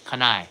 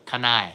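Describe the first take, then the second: Both takes have the same delivery.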